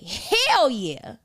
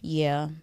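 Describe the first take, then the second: First: It is said with lively excitement. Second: It is said low and reluctantly.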